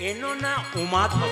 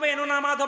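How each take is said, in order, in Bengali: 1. শেষ শব্দটিতে একটা u আছে: umadhab। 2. শেষ শব্দটা সাধারণ madhab। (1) "আমি কি বলছি আগে দেখ উচ্চারণটা" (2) "তুই যে বললি"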